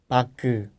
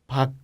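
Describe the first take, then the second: First: The final consonant is released with an extra vowel. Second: The final consonant is clipped short and unreleased. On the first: The speaker calls it wrong. "No puedes pronunciar como 박" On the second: The speaker calls it right. "Hay que ser corto"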